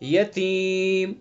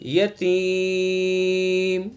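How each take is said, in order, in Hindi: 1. लंबे स्वर को दो मात्राओं तक खींचा जाता है। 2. लंबे स्वर को चार मात्राओं तक खींचा जाता है। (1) "दो अलिफ" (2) "चार अलिफ हो गए"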